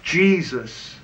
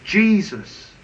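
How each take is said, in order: First: Jesus alone after a pause, falling; slow weighty single word Jesus; one-word emphasis. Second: Jesus again, a little higher, falling; higher repeat of Jesus; repeated emphasis. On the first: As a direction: land Jesus as the whole answer. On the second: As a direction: say Jesus once more with conviction. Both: Shown as a demonstration. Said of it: "sum it up for you ... in one word".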